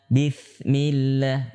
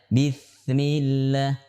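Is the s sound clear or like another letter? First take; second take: like another; like another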